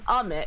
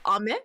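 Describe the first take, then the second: First: The pitch goes down across the word. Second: The pitch goes up across the word. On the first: The word means rain. "going down, ame is rain" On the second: The word means candy. "if it goes up, ame, that's candy"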